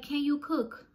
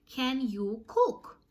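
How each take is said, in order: First: Higher-pitched quick question; pointed challenge. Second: "Can you cook" very slow, each word separate; drawn-out challenge. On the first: Confronting roommates at the meeting, pointed question. Retold challenge, first take. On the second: Confronting roommates at the meeting, "Can you cook" slow and emphatic. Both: Retold or imitated.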